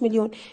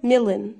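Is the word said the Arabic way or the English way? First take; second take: Arabic; English. First: It is pronounced like the Arabic word milyoon. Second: It is pronounced like the English word million. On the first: The speaker calls it wrong. "انا سامعاك اللي بتقولي مليون بالانجلش اسمها مليون، لا يا بابا اسمهاش مليون" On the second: The speaker calls it right. "اسمها million"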